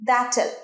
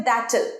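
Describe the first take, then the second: No difference in how they are said.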